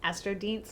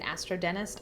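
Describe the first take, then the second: First: It ends in a short 'deenst' sound. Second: It ends like the English word dentist. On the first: The speaker calls it right. "I think it's Astrodienst" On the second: The speaker calls it wrong. "I always end up calling it Astrodentist"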